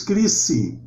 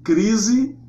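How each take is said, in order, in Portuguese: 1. O S é surdo, um som de S sibilante. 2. O S é sonorizado, com som de Z. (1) "se nós fôssemos pronunciar a palavra crise em grego, pronunciaríamos" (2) "Em português nós temos"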